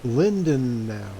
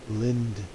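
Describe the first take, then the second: First: "Lindenau" spoken slowly as LIN-de-nau, three syllables. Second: "Lindnau" clipped to two syllables, LIND-nau. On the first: Pilot testing how to say the town name, slow three-syllable "Lindenau". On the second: Pilot trying the shorter version of the name, two-syllable "Lindnau". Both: Shown as a demonstration. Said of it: "Is that two syllables or three syllables?".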